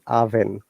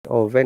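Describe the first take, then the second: First: The first vowel is a short 'uh' sound. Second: The first vowel sounds like 'oh'. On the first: The speaker calls it right. "there is no O sound in the first word" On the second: The speaker calls it wrong. "It's not oven"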